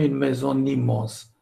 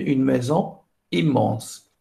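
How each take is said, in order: First: A liaison links maison to immense. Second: Maison and immense are said without a liaison. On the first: The speaker calls it wrong. "Je ne peux pas dire" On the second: The speaker calls it right. "je dois dire"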